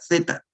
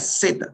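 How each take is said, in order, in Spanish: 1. La lengua se sitúa entre los dientes, un sonido th. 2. La lengua se queda detrás de los dientes, un sonido s.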